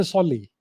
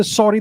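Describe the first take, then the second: First: "solly" with L in place of R; Japanese-accented pronunciation. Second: Said in the usual way. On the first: Shown as a demonstration. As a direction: say "solly", swapping the R sound for an L. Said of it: "When the Japanese speak English". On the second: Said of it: "they say solly".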